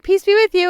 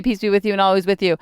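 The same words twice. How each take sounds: First: High-pitched, over-cheery greeting; happy, annoying energy. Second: Said in the usual way. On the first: Retold or imitated. Churchgoer greeting a stern neighbor, overly happy. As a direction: chirp it far too happily. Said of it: "with my happy, like, probably annoying energy". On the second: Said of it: "You know, usually say".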